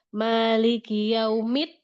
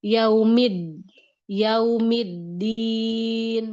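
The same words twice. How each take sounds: First: Yaumid ending in a T sound; wrong dal. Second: Yaumiddin very slow with a firm, voiced D; strong dal. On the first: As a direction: end yaumid with a voiceless T. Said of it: "bukan yaumid". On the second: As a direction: press the D of yaumiddin hard and slow. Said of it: "dia kuatin huruf dal". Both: Shown as a demonstration.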